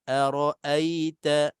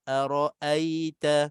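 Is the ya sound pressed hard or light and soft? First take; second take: soft; soft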